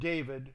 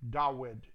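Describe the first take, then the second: First: The middle consonant is a v sound. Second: The middle consonant is a w sound. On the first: The speaker calls it wrong. "Not David" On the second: The speaker calls it right. "It's a waw, not a vav"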